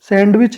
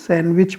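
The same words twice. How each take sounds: First: The d is sounded in the middle. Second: The d is left out in the middle. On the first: The speaker calls it wrong. "सैंडविच नहीं बोलेंगे" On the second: The speaker calls it right. "डी नहीं बोला जाएगा"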